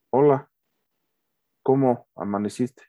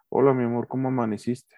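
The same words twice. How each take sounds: First: Flat serious greeting; more serious tone. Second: Loving tone. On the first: Husband greeting his wife, now serious and indifferent. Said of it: "Ya es un tono más serio". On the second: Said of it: "Mi tono de voz es que suave, con amor, con cariño". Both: Shown as a demonstration.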